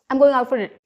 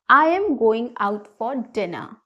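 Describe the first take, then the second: First: It is said fast with words run together. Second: It is said slowly with every word distinct. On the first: The speaker calls it wrong. "Did you understand what I said? No, it was not clear to you" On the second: The speaker calls it right. "pronounce each word completely"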